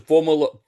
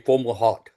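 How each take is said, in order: First: The name ends in an open 'lo' sound. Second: The name ends in a 'hawt' with t. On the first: This is one listener's own pronunciation. "Jerry says Fomolo" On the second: This is the pronunciation most people use. "a lot of us say Fomalhaut"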